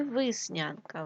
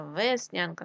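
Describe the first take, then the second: First: Виснянка with и instead of е; wrong variant виснянка, first vowel и; и in first syllable. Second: Said in the usual way. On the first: Shown as a demonstration. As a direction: say виснянка with short i after В. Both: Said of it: "тому що весна".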